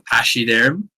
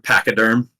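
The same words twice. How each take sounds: First: The word is pronounced the French way. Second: The word is pronounced the English way. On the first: "try and pronounce it in the original French" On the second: "in uh, in in English"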